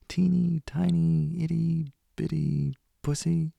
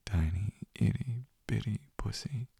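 First: Put-on high teasing baby talk; cutesy baby voice. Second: Said in the usual way. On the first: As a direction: squeak it out mockingly. Mocking tiny cutesy words.

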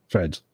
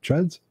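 First: "Threads" with a clear th, said low and firm; corrected word. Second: "Treads" said with a plain t, asked as a question; questioning "Treads" with a rising tune; wrong word. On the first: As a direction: settle on "Threads" falling. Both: Shown as a demonstration. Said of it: "I know you meant threads".

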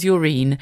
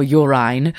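First: "urine" said YOO-reen; pronunciation variant. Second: "urine" said YOO-rine; pronunciation variant. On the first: Speaker offering one name for it, "urine" as YOO-reen. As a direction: say "urine" with a long EE in the second syllable. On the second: Speaker offering the other name for it, "urine" as YOO-rine. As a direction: say "urine" with a second syllable rhyming with "fine". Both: Shown as a demonstration. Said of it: "whatever you like to call it".

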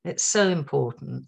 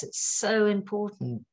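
First: Said in the usual way. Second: "so" drawn out high and slow; stress on so. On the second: Real, not acted. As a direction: lean hard on "so", slowly. Repeats the advice with emphasis.

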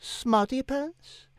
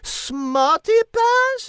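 First: Slow, soft disbelief; stunned repeat. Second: Much higher, louder, very slow outrage; outraged shriek. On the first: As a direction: echo it quietly, stunned. Cat repeats insult stunned. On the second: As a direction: explode in French indignation. Cat explodes at insult. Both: Acted.

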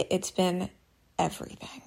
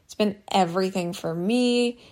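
First: Softly, almost under the breath; quiet. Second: Said in the usual way. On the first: Real, not acted. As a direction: let the last word fade to nothing. Heartfelt confession, voice drops away.

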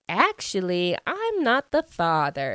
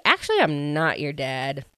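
First: Lightly hammed-up TV verdict, pitch rising; talk-show paternity reveal. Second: Said in the usual way. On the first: Dad disowning his son, mock talk-show reveal. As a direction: announce it like a daytime paternity result, lightly mocked. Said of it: "kind of like a, a Maury show". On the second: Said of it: "He's like".

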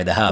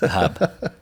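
First: Boston accent. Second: "The Hub" laughed out higher in a broad Boston accent; laughing Boston accent. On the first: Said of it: "Sorry, the Hub". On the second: Laughing at his own Boston accent, he repeats it. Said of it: "say these in a Boston accent". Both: Shown as a demonstration.

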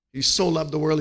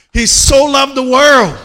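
First: Said in the usual way. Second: High, loud, slow preached line; shouted preaching. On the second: Acted. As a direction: belt it out to the whole church. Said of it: "preaching climax vs calm repeat".

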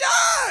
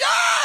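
First: Very high, loud crowd scream; imitated crowd scream. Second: Very high, loud roar; mock rock star roar. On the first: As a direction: shriek like a thrilled audience. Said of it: "And everyone's like". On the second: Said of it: "and he's like".

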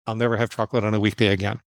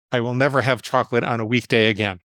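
First: Same rule, said fast; quick restatement. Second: Measured, evenly spoken rule; deliberate vow. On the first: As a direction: run through the rule briskly in one go. Repeats the rule more quickly. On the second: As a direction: lay the rule down deliberately, word by word. States his rule, then repeats it. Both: Retold or imitated.

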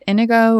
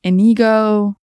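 First: Inigo said IN-uh-go; first-syllable stress. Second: Inigo said ih-NEE-go, louder; middle-syllable stress. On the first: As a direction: stress the opening of Inigo, weak middle vowel. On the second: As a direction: lean hard on the "nee" in Inigo. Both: Shown as a demonstration. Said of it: "depends where you put the emphasis".

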